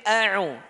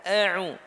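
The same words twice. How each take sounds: No difference in how they are said.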